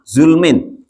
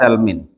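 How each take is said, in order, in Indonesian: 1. Vokal pertama adalah u, tanpa vokal kedua. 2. Vokal pertama adalah a, tanpa vokal kedua. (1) "Wa dhammuha dan boleh dibaca dhamma" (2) "Bi fathi za'i dengan dibaca fathah huruf za-nya"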